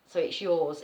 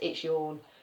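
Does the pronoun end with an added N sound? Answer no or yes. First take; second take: no; yes. First: The pronoun is said without an added N sound. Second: The pronoun is said with an added N sound.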